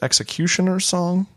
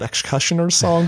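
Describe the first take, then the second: First: The word is said as ex-ecutioner. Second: The word is said as ex-cushioner. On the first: "It's pronounced Executioner's Song" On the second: "I just always called it Excussioner's Song"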